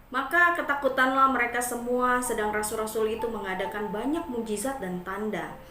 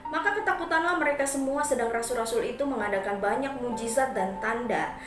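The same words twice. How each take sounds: Both takes have the same delivery.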